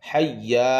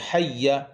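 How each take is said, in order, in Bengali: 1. শেষ স্বরধ্বনিটি লম্বা করে টেনে পড়া হয়। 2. শেষ স্বরধ্বনিটি ছোট রাখা হয়। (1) "হাইয়া বলবেন না" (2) "যেমন এখানে রয়েছে হাইয়া"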